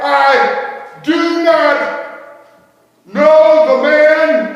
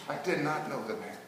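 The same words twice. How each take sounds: First: Very slow, high, full-voiced shout; shouted denial. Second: Quiet denial. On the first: Peter declaring before them all, shouting. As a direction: bellow it, stretching every word. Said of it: "I declared before them all". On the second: Acted. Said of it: "I said".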